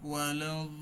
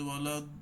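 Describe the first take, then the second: First: The final d sound is held and continues. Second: The final d sound is abruptly cut off. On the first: The speaker calls it right. "সাউন্ডটা কিন্তু কি রয়েছে, চলমান রয়েছে" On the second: The speaker calls it wrong. "এটা সাউন্ড আটকে যাওয়া"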